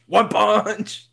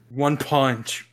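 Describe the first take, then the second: First: Higher, playful shout; excited exclamation. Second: Said in the usual way. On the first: Pretend. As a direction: ham it up with glee. Repeating friend's line, then shouting.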